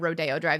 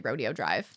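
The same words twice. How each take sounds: First: Rodeo is said the usual local way. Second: Rodeo is said the way a newcomer says it. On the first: The speaker knows the place. The speaker calls it right. "instead of Rodeo Drive" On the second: The speaker is new to the place. The speaker calls it wrong. "they say Rodeo Drive"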